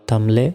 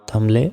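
No difference in how they are said.

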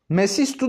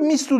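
First: The full form is said with three syllables. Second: One s is dropped, leaving two syllables. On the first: "Şimdi Araplar mesistu da diyebiliyorlar" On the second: "bu sinin bir tanesini götürüp mistu da diyebiliyorlar"

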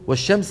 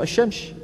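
First: The word has standard Quranic articulation. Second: The word has Moroccan dialect articulation. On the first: The speaker calls it right. "شو بدك تقول؟ والشمس وضحاها" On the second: The speaker calls it wrong. "إخواننا بالمغرب في ناس بيقولوا الشمس"

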